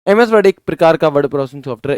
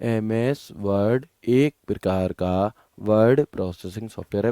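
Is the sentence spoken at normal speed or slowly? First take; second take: normal; slowly. First: The sentence is spoken at normal speed. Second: The sentence is spoken slowly.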